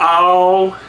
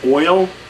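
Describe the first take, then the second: First: Oil is said like 'all', in a Southern drawl. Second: Oil is said with its usual two-part vowel. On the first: "like a Texan saying y'all, but drop the Y" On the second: "everybody else says oil"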